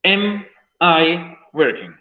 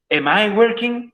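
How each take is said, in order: First: Very slow, falling, every word spaced; slow model reading. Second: Slow and higher, sung as a question; raised question demo. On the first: Teacher showing students the question, slow and falling. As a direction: read it out slowly as a model. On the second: Teacher repeating the example as a lifted question. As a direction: lift it up as a real question. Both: Shown as a demonstration.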